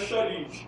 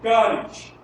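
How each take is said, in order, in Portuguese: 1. A palavra começa com som de sh. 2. A palavra começa com som de k. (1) "a pronúncia correta no, no grego não é charis" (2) "é caris"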